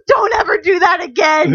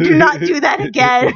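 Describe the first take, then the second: First: Louder shout; scolding shout. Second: "not" hit hard in "Do not do that again"; stressed not. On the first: Friend Erica scolding her after the scare, shouting. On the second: Friend Erica repeating the warning, stressing "not". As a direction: punch the word "not". Scolding after the scare. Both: Retold or imitated.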